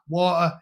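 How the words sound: It is said the British way, with one soft T and R. The speaker calls it right. "One T and one R"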